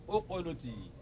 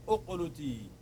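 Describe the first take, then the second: The two takes are said the same way.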